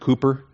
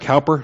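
First: The first syllable rhymes with "too". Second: The first syllable rhymes with "how". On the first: The speaker calls it right. "It's actually pronounced Cooper" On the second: The speaker calls it wrong. "it looks like Cowper"

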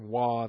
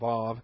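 First: The word begins with a W sound. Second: The word begins with a V sound. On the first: "more of a W sound" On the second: "than a V sound"

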